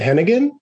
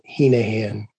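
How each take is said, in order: First: The G in the middle is pronounced. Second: The G in the middle is silent. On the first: This is how most people say the name. The speaker calls it wrong. "Most folks with the spelling as it is pronounce it Hennigan" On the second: This is how the family says the name. The speaker calls it right. "my grandfather was particular that the G is silent"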